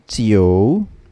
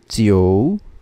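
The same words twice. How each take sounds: First: An o sound is heard between i and u. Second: The same.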